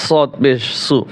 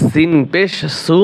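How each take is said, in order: First: সু with a full, emphatic s; heavy sad. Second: সু with a thin, light s; light sin. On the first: Teacher contrasting similar letters, সু with the heavy s of sad. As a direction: thicken the s of সু, back of tongue raised. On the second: Teacher contrasting similar letters, সু with the light s of sin. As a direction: keep the s of সু light, tongue forward. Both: Shown as a demonstration. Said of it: "একটি হরফ অন্য হরফের সাথে মোসাব্বা লাগে".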